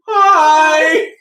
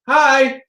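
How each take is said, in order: First: It is said loudly and excitedly. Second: It is said in a normal, calm way.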